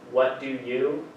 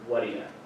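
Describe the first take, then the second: First: Each word is said fully and separately. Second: The words are shortened and run together. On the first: "one example is what do you" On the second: "to what do ya"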